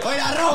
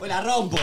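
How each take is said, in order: First: It is said louder. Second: It is said at normal volume.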